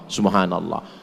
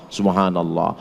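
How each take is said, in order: The two takes are said the same way.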